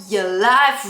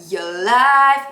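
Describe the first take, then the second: Both takes have the same delivery.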